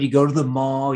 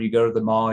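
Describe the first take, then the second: First: It is said with lively, animated energy. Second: It is said with flat, low energy. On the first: "why am I more animated?" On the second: "if I just sit here and do this"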